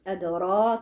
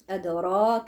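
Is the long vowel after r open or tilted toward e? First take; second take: open; open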